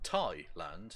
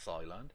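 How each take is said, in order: First: The word begins with a plain t sound. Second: The word begins with a th sound. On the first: The speaker calls it right. "I pronounce it" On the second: The speaker calls it wrong.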